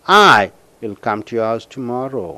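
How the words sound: The word I is stressed. The speaker will come alone. "When you stress for I, see here"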